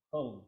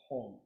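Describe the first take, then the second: First: Hung with a short u sound as in hut; the mistaken hung vowel; wrong vowel hung. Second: Hong with a soft open o, not hung; soft vowel hong. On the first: Teacher shows the wrong vowel, hung with u. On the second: Teacher correcting vowel, soft o in hong. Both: Shown as a demonstration. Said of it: "Soft, uh, vowel, hong, not hung".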